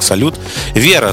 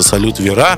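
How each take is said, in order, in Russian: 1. Ударение в слове «Вера» падает на первый слог. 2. Ударение в слове «Вера» падает на последний слог. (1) "по нормам русского языка надо читать именно как «Салют Вера»" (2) "в песне поется «Салют Вера»"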